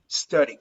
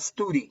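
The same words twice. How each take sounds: First: The first vowel is a relaxed 'uh' sound. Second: The first vowel is not a relaxed 'uh' sound. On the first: The speaker calls it right. "It's a relaxed sound like uh" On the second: The speaker calls it wrong. "It's not study"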